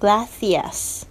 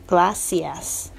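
First: The c is a soft 'th' sound. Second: The c is an 's' sound. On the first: This is the special pronunciation of Spain. "这个C 的声音是这个轻轻咬住舌尖的这个声音，吐气的这个声音" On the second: This is how it is said in Central America. "他们这个C 普遍是发S 的声音"

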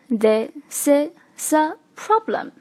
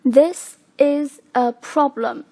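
First: The words run together without breaks. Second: Each word is said separately.

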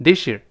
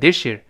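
First: The s and y merge into sh. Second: The same.

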